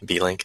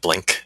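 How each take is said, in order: First: The name is said as two syllables. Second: The name is said as one syllable. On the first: The speaker calls it right. "I think that's how you say it" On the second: The speaker calls it wrong. "instead of Blink"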